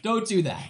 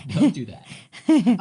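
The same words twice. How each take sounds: First: Said in the usual way. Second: "Don't do that." said very slowly, each word weighted; slow, pointed don't-you-dare; emphatic warning. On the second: Shown as a demonstration. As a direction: drag out "Don't do that" as a firm final warning. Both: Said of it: "So don't do that".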